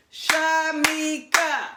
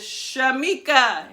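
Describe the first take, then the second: First: "Shamika" high, slow, in three beats; clapped-out syllables. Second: Said in the usual way. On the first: Shown as a demonstration. Teacher clapping out her name for children, "Shamika" beat by beat. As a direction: stretch sha, mi, ka, one beat each. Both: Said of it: "we're gonna clap out the syllables".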